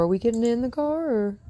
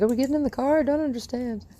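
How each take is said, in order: First: Asking the dog. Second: High, puzzled voicing of the dog; dog's voice. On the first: Real, not acted. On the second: Trainer voicing her puzzled dog at the car, high and bewildered. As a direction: squeak it like a confused puppy. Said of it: "She's like".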